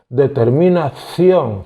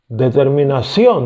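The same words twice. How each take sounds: First: The c sounds like a th. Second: The c sounds like an s. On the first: This is how Spaniards say it. "ellos dicen determinación, ción, como si fuera Z" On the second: This is how Latin Americans say it. "Determinación, decimos nosotros"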